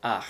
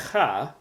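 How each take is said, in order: First: Ach as ahh-kh, ending on the throaty consonant; vowel first. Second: Cha as throaty khah, ending on the open vowel; consonant first. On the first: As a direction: open ach on the ah, close on kh. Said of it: "you pronounce it". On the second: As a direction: start cha on the kh, then ah. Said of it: "you do not pronounce it". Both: Shown as a demonstration.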